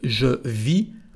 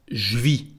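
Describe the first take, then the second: First: The vowel of je is fully pronounced. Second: The vowel of je is dropped, contracted. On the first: "En vez de decir"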